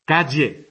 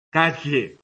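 First: "Calle" with air escaping by the molars; lateral LL. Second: "Calle" with air out the sides of the tongue; lateral LL. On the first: Teacher demoing the distinct LL, air by the molars. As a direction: say "Calle" with a side-of-tongue LL. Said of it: "tiene que salir el aire por las muelas". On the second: Teacher demoing the old LL, air out the sides. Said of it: "tiene que salir el aire por los lados". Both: Shown as a demonstration.

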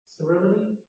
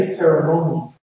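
First: Ceremony with a weak schwa in the third syllable; RP pronunciation. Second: Ceremony with a full O diphthong, CER-uh-MOH-nee; extra stress on the "mo" of "ceremony"; American-style pronunciation. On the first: Teacher showing RP, "ceremony" with schwa before the final nee. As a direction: reduce "ceremony" to CER-uh-muh-nee. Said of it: "The R P word, uh, uh, has a schwa". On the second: Teacher showing own accent, "ceremony" with stressed long O in mo. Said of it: "a diphthong where R P English has a schwa". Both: Shown as a demonstration.

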